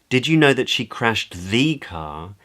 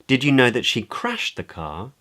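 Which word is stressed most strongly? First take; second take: know; crashed. First: The word know carries the main stress. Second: The word crashed carries the main stress. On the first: It asks whether the listener was aware of it. "Questions whether the listener knows" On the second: It asks whether the listener knew what happened to the car. "Questions whether the other person knew the state of the car"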